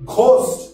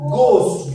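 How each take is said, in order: First: The word begins with a breathy, aspirated g. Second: The word begins with a plain, unaspirated g. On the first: The speaker calls it wrong. "It's not ঘোস্ট, ঘ নয়" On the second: The speaker calls it right. "এটা হচ্ছে গোস্ট, গ"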